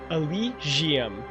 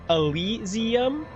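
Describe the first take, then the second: First: The middle consonant is a soft zh sound. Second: The middle consonant is a plain s sound. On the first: The speaker calls it right. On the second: The speaker calls it wrong.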